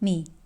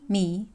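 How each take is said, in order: First: The syllable carries the third Mandarin tone. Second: The syllable carries the second Mandarin tone.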